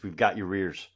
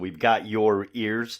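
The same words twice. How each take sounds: First: It is said fast, words running together. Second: It is said slowly and clearly.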